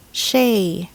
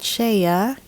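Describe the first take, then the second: First: Shea as one syllable, SHAY; correct pronunciation. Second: Shea in two syllables, SHAY-uh; mispronunciation. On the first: Teacher models shea for learners, correct one-syllable SHAY. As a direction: say shea as a single clean SHAY. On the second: Teacher shows learners what to avoid, shea as SHAY-uh. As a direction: add an extra uh to shea, rising. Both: Shown as a demonstration. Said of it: "not shea".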